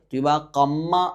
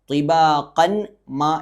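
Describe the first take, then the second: First: The n merges into a doubled m sound. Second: The n sound is heard before the m. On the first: The speaker calls it right. "എന്ന് പറഞ്ഞു" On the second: The speaker calls it wrong. "എന്ന് പറയാതെ"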